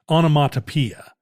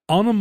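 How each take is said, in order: First: The '-poe-' syllable has an 'ee' vowel. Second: The '-poe-' syllable has an 'eh' vowel. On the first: The speaker calls it wrong. "he would not let you get away with onomatopoeia" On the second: The speaker calls it right. "It was onomatopoeia"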